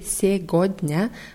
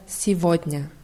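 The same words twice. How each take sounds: First: The middle consonant is pronounced as a g. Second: The middle consonant is pronounced as a v. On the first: The speaker calls it wrong. "mit G" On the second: The speaker calls it right. "ausgesprochen aber"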